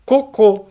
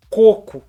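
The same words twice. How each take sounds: First: Cocô with stress on the last syllable: co-CÔ; cocô, oxytone, stress on the final ô. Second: Coco with stress on the first syllable: CO-co; coco, paroxytone, stress on the first o. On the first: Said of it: "colocou no segundo O". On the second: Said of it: "a sua pronúncia é". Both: Shown as a demonstration.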